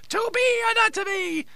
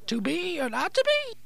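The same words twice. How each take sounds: First: The voice falls at the end like a statement. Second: The voice rises at the end like a question. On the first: It is stated as a fact. The speaker calls it wrong. "make it sound like a question, not a statement" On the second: It is asked as a question. The speaker calls it right. "Say it like a question"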